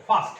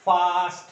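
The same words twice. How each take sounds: First: first in a single short, loud push; quick, forceful first as one syllable. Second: first stretched loudly as one unbroken syllable; drawn-out, unbroken FIRST. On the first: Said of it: "ধাক্কায় উচ্চারিত হচ্ছে". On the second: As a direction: say first long and loud, without a break. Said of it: "এটাকে তুমি কিন্তু করতে পারবে না". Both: Shown as a demonstration.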